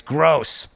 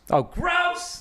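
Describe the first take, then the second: First: Said in the usual way. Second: "gross" squealed much higher; exaggerated disgust. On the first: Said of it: "And he writes". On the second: Shown as a demonstration. Bill Burr-style "gross" reading, pitched way up. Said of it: "Like I say it".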